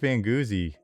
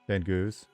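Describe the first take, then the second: First: The name ends with two syllables, goozy. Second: The name ends with one syllable, goose. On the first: "I like Van Goozy" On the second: "that's how you pronounce it"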